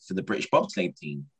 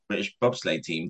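First: Lightly voiced coach, pitch rising high on the question; a hint of an eager coach; inviting question. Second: A touch of mock disbelief; disbelieving echo. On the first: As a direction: ask it like a keen recruiter. Coach invites him to try out. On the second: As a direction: mutter it back like it's absurd. Echoing the offer in disbelief.

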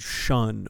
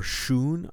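First: "shun" with a short vowel, rhyming with fun; alternative pronunciation. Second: "shun" with a long oo, like shoon; alternative pronunciation. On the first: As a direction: say "shun" to rhyme with sun. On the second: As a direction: say "shun" to rhyme with moon. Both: Shown as a demonstration. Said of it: "not quite sure how to pronounce it".

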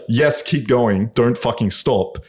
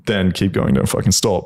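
First: Slow, drawn-out "Yes, keep going"; urgent plea. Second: Said in the usual way. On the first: Retold or imitated. Girl telling her partner to continue, slow and emphatic. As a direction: imitate her urging, stretching each word of "don't fucking stop". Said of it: "If she's like".

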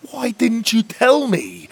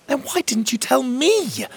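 First: Slow, high, loud, stress on tell; hurt fairy huffing at the boy; huffy reproach. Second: High, loud, stress on me; fiery demand. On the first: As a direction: demand why he didn't tell. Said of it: "Mags huffed". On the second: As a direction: turn it back on him angrily. Emerald's hair looked extra fiery. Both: Acted.

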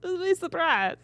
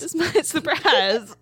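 First: Laughing through the words, higher. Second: Slow, dramatic drawn-out teaser; hammed-up teaser. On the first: Pretend. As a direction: giggle while repeating it. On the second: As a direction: drag it out like a movie trailer. Hamming up own teaser.

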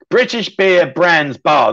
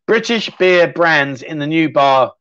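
First: Slow tongue twister, breaking into laughter; laughing through it. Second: Slow, deliberate tongue twister attempt; slow careful read. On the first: Host retrying the viewer's tongue twister, laughing. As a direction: stumble through it while laughing. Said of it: "That's a bit of a tongue twister". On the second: Viewer's tongue twister read out slowly and carefully. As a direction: take it word by word, slowly. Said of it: "That's a tongue twister". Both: Shown as a demonstration.

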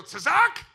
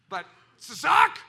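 First: Tzazak said high and loud with a rise; Tzazak, high, loud, rising; Hebrew laugh word. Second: Tzazak said loud with a rising end; tzazak, bright and loud like a laugh; Hebrew laughter word. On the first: Retold or imitated. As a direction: imitate how Hebrew speakers laugh, Tzazak. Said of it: "They go". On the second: Shown as a demonstration. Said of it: "that's like a laugh".

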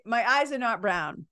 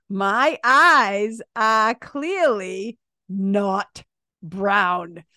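First: Said in the usual way. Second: "My eyes are clearly not brown" drawn out, word by word; slow emphatic insistence. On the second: Real, not acted. Telling viewers to look at her eyes, slow and emphatic. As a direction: stretch EYES and CLEARLY, pausing before "brown".

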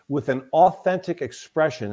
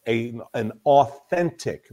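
First: Said in the usual way. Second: "authentic" drawn out slowly and emphasized; stress on authentic. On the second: Shown as a demonstration. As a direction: lean hard on "authentic", slowly. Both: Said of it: "that's an important word in there".

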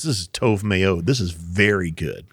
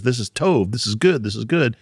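First: "meod" and "very" leaned on, slower; slow down and press on "very"; emphatic. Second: Said in the usual way. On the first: Shown as a demonstration. Hosts explaining God's final verdict, emphatic. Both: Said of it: "Kind of an emphatic".

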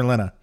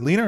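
First: Short e in "Lena"; "Lena" with a short first vowel, LEN-uh; second pronunciation of Lena. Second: Long ee in "Lena"; "Lena" with a long first vowel, LEE-nuh; first pronunciation of Lena. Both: Shown as a demonstration. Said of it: "Is it Lena or Lena?".

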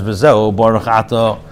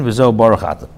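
First: V'Zeu Baruch Ato read slowly, word by word; measured, deliberate recitation of the text; slow quoted reading. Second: Said in the usual way. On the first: Shown as a demonstration. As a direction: lay out V'Zeu Baruch Ato slowly as the Alter Rebbe's words. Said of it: "So the Alter Rebbe says". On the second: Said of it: "Page eighteen".

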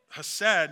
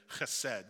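First: Anglicized "hesed" with an ordinary breathy h at the start; Southeast Missouri pronunciation. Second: "chesed" with a throaty, spitting ch at the start; fancy Hebrew "chesed", opening on a guttural ch; original Hebrew pronunciation. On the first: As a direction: say "hesed" the easy American way, opening on a simple h. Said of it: "like we would say in Southeast Missouri". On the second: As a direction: rasp the first sound of "chesed" in the throat. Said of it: "'cause that's how it was pronounced". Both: Shown as a demonstration.

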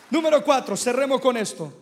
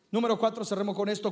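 First: Loud announcement. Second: Said in the usual way. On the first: Shown as a demonstration.

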